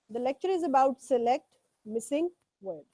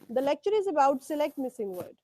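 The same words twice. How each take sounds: First: Words are read separately with small gaps. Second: Words flow together without gaps.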